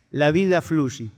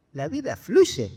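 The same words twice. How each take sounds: First: Slow, drawn-out sage's pronouncement; measured punchline, each word stretched; solemn sage. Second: Slow, disbelieving repeat; mildly bewildered, words drawn out; baffled echo. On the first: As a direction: deliver it slowly like a wise master. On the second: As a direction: echo it back as a puzzled question. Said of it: "lo mira desconcertado". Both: Acted.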